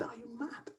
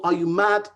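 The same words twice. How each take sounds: First: Breathless unvoiced hiss of disbelief; a shocked mother's whisper. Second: Firm, louder reproach; angry mother's rebuke; loud scolding. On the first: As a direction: whisper it, aghast. Mother hears of the marriage. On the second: Acted. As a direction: bark it at him.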